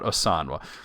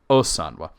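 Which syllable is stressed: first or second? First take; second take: second; first. First: The stress falls on the second syllable. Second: The stress falls on the first syllable. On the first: The speaker calls it wrong. "not Osanwa" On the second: The speaker calls it right. "there's an accent over the O"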